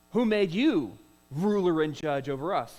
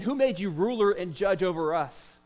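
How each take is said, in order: First: Louder, harsh challenging question; harsh retort. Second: Said in the usual way. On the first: Acted. The guilty Hebrew snaps back at Moses, harsh and louder. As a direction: throw the challenge back hard. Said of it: "That is a really harsh question".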